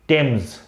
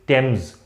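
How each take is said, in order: The two takes are said the same way.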